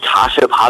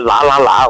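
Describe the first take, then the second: First: Each syllable keeps its own standard Mandarin sound. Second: All three syllables are said alike as la.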